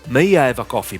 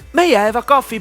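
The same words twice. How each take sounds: First: The voice is pitched low. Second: The voice is pitched high. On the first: "Low tone" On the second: "High tone"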